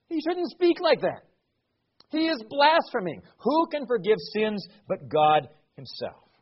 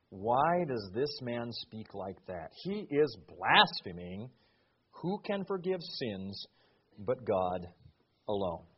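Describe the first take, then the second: First: Higher and louder outraged accusation; indignant scribes. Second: Low, soft, slow doubting scribes; inner grumbling. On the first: Scribes turning on Jesus, loud and indignant. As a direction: throw the charge out in righteous outrage. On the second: Scribes doubting Jesus in their hearts, low and slow. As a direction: mutter it as thoughts kept to themselves. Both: Acted.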